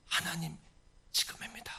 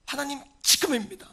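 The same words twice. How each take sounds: First: Hushed plea. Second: 지금입니다 punched higher and louder; stress on 지금입니다. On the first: Praying to God for action now, hushed plea. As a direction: say it under the breath to God. Same plea, first softly. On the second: Demanding that God act now, 지금입니다 punched high and loud. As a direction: hit 지금입니다 with urgent force. Same plea, now with force. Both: Acted.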